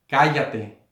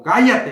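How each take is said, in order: First: Measured reading of a command; slow, restrained reading. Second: Sudden loud, high shout; shouted rebuke. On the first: Shown as a demonstration. Preacher reads Jesus' rebuke in a small room, slow and restrained. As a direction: read it deliberately, holding back the shout. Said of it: "estoy leyendo así despacio". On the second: Acted. Jesus silencing demons, as the preacher acts it, shouting. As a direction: shout it as a forceful command. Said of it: "ahí está gritando Jesús".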